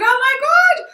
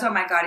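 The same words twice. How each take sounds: First: Very high, loud, drawn-out squeal; thrilled mock squeal. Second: Mildly exasperated. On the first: Actress hearing she got the lead, thrilled squeal. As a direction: reenact squealing with sheer excitement. Her reaction to getting the lead. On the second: Retold or imitated. Agent reacting to the actress's doubtful answer, mildly exasperated. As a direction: mutedly imitate an exasperated agent.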